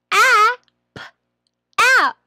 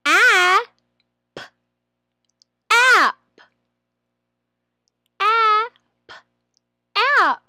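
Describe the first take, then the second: First: "app" said short and quick; quicker blend. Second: High, loud drawn-out "App"; blending. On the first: Trainer shows a faster way to blend "app". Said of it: "Or you may do". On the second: Trainer blends the sounds into "app", high and loud. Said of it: "you put the sounds together". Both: Shown as a demonstration.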